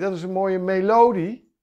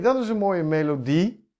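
First: The stress is on the second syllable. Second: The stress is on the last syllable. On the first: The speaker calls it wrong. "Niemand zegt melodie" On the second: The speaker calls it right. "dit klinkt herkenbaar"

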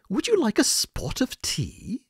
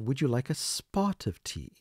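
First: It is said in an imitated British accent. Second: It is said in a plain, non-British accent. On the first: "And that's the British accent" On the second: "a little different than I am saying it right now"

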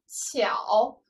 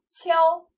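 First: The syllable is said with a dipping third tone. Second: The syllable is said with a high level tone. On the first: "读作三声的时候" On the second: "一声的时候读作悄"

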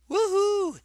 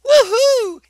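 First: It is said quietly. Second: It is said loudly.

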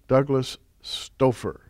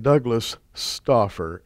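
First: The surname's first vowel does not match 'offer'. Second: The surname's first vowel rhymes with 'offer'. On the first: The speaker calls it wrong. "I did it" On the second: The speaker calls it right. "Let me say it correctly"

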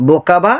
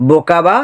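Both takes have the same delivery.

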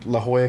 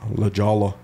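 First: The name is said with a Spanish-style accent. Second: The name is said with an anglicized American accent.

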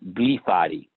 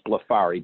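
First: The name is sounded out syllable by syllable. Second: The name is said smoothly as one word. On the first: Someone else mispronounced the name. "he would pronounce it Blefari. He would sound it out" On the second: This is the family's own pronunciation. "my last name is Blefari"

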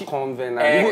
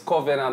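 First: The word is said with an n before v. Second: The word is said without an n before v. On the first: The speaker calls it wrong. "not convenant" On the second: The speaker calls it right. "It's covenant"

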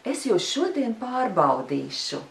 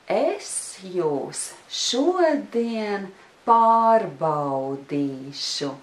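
First: It is said at a fast pace. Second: It is said at a slow pace.

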